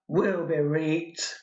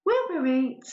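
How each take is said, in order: First: Slow Northern repeat through a laugh; laughing Northern accent. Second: Put-on playful Northern accent as the wife to Harry; mock Northern accent. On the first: Acted. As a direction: giggle the Northern line out slowly. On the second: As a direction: land the Northern punchline broadly. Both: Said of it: "I've clearly mastered dialect".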